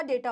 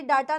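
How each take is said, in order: First: डेटा as "DAY-taa", low and soft; soft corrective "daytaa" for डेटा; correct variant. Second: डेटा as "DAA-taa"; the rejected "daataa" form of डेटा; wrong variant. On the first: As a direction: start डेटा with a "day" sound. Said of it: "डेटा होता है". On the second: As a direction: open "daa" first syllable in डेटा. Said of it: "ये डेटा नहीं होता". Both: Shown as a demonstration.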